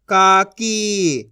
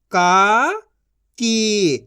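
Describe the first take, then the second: First: काकी as one joined word; long काकी, falling at the end; blended reading. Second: काकी split into का, pause, की; syllable by syllable. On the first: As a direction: join का and की. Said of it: "इनको आपस मिला के पढ़". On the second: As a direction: sound out काकी in two syllables. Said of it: "एक एक अक्षर का उच्चारण करके". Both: Shown as a demonstration.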